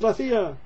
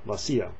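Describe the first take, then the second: First: The word begins with a 'th' sound. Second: The word begins with an 's' sound. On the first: "if you're in Spain" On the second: "if you're in Latin America"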